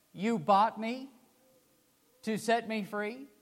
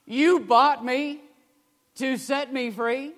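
First: Weeping disbelief. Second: Louder, higher, slow tearful question; tearful cry. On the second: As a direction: cry it out in disbelief. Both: Retold or imitated. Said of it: "through weeping tears".

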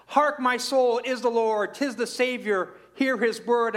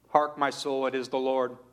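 First: Raised, ringing recitation of the hymn line; reading the opening stanza to the congregation, raised and bright; reciting the hymn. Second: Said in the usual way. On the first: Acted. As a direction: lift the voice, proclaim the verse. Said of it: "this first stanza says". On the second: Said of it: "wrote this beautiful hymn".

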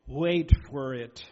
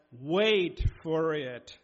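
First: WAIT leaned on, slow and loud; slow it right down and hit WAIT; a preacher pressing the point, slowly; emphasized slowly. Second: Very slow, WAIT drawn out; drawn-out WAIT for emphasis; emphasized slowly. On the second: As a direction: stretch each word, weight on WAIT. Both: Shown as a demonstration. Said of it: "I emphasize those words".

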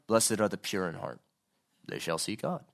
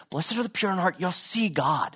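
First: Low, subdued recital without pleading; detached recitation. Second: Higher, lilting earnest appeal; pleading. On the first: Preacher showing how Jesus did not say it, detached. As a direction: recite it matter-of-factly, low and unmoved. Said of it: "I'm just not thinking he's going". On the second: Preacher voicing Jesus pleading with us, earnest appeal. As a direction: plead with them to take it in. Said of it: "he's pleading with us and going". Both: Acted.

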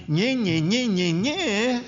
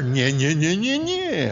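First: High, whiny nye-nye taunt; mock sing-song nagging; mocking nagging wife. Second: Louder nye-nye shot back, rising high at the end; loud mocking comeback; mocking retort. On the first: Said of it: "If she says to me". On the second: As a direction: throw the taunt straight back at her. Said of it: "I say to her".

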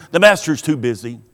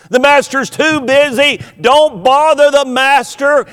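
First: Said in the usual way. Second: "master's" stressed, higher and louder, shooing people off; mock scolding disciple. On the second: Preacher imitating disciples turning parents away, mock scolding. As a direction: shoo the parents away, a touch hammed-up. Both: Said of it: "hear those disciples saying".

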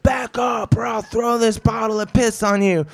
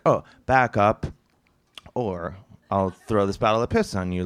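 First: High-pitched rushed shout, no pauses; yelled run-on warning, far higher than usual; all-at-once threat. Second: Mock-casual threat with a long pause; leisurely, offhand version of a threat; time to think. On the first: Retold or imitated. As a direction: fire off the whole threat in one go. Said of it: "he says it all at once". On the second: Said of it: "you think that he's like".

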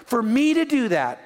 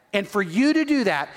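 First: "me" leaned on, the line falling after it; weight on "me" before "to do that"; stress on me. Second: "you" leaned on, the line falling after it; weight on "you" before "to do that"; stress on you. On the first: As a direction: point to yourself with "me". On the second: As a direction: turn it on the listener with "you". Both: Shown as a demonstration.

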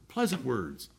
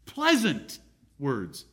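First: Said in the usual way. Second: Pleasant words, drawn out very slowly; slow, savoring emphasis on Pleasant words. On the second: Shown as a demonstration. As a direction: linger on every syllable of Pleasant words.

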